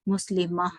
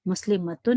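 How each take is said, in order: First: The word ends softly with an 'ah' sound. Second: The word ends with a full 'tun' ending. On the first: "जब हम वहां पर किस ताए मरबूता पे रुकते हैं तो इट चेंजेस इनटू ह" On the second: "you will have to से मुस्लिम मतुन"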